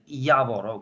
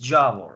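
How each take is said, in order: First: The name starts with a Y sound. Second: The name starts with a J sound. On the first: It is said the way the native language says it. The speaker calls it right. "you need to pronounce it Yavor" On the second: It is read the way it is written. The speaker calls it wrong. "because it is how it is written, it is Javor"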